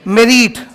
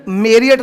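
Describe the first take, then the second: First: मेरिट said with a long second vowel, "meh-reet"; मेरिट pronounced "meh-reet", long ee, spelled out as M E R E E T; correct pronunciation. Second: मेरिट said the common way, short second syllable "meh-rit"; मेरिट with a clipped short "rit" as the mistaken version; wrong pronunciation. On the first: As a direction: stretch the end of मेरिट into "reet" as the correct form. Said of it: "इसका pronunciation होता है". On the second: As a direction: give मेरिट the usual Indian "meh-rit" you are correcting. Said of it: "इसका pronunciation मेरिट नहीं है". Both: Shown as a demonstration.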